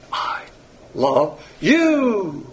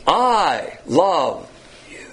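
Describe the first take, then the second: First: "I love" held back, "you" high and drawn out; stress on YOU. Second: "I" drawn out and punched, "you" fading away; stress on I. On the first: Preacher showing that phileo emphasizes the object, stress on "you". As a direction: swell onto a long, high, emphatic "you". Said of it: "puts all the emphasis on the object". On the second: Preacher showing that agape emphasizes the subject, stress on "I". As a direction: lean hard on "I", let "you" drop to almost nothing. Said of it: "agape puts all the emphasis on the subject". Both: Shown as a demonstration.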